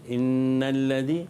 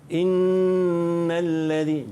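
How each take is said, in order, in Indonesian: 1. Bunyi sengau n dipotong pendek. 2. Bunyi sengau n ditahan panjang. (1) "jangan baca innal ladzi, tak nak ... dia tak ada dua harakat" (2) "dengung dengan qadar dua harakat"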